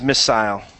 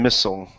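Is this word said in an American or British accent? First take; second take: British; American. First: The word is said in a British accent. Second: The word is said in an American accent. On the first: "So the British is missile" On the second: "the American is missile"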